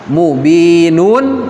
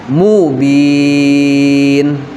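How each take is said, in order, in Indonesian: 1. Kata ini berakhir dengan vokal lalu n. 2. Kata ini berakhir dengan bunyi n. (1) "itu kan tanwin dhammah kan?" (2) "dalam posisi waqaf, maka cara pembacaannya itu adalah mubin"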